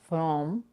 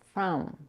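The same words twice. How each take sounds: First: The vowel is a rounded 'o' sound. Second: The vowel is an open 'cup' sound. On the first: The speaker calls it wrong. "It's not from" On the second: The speaker calls it right. "but from"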